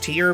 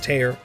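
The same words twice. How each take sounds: First: Tear is said to rhyme with ear. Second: Tear is said to rhyme with air. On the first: The name means a drop from the eye. The speaker calls it wrong. "it's Tear because of Korean pronunciation, and also her symbol has a tear on it" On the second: The name means ripping through something. The speaker calls it right. "I don't care what anyone says, it's Tear"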